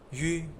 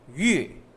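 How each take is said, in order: First: The pitch is soft and neutral. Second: The pitch falls from high to low. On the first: "pronounce it without tones" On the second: "from high to low"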